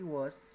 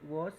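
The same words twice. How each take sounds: First: It is said with an American pronunciation. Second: It is said with a British pronunciation. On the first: "en Estados Unidos" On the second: "se pronuncia en Gran Bretaña"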